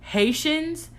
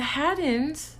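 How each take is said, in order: First: The middle consonant is an 'sh' sound. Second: The middle consonant is a 'd' sound. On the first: The speaker calls it right. "correctly pronounce Haitians" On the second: The speaker calls it wrong. "I think that's how she said it, but she said it wrong"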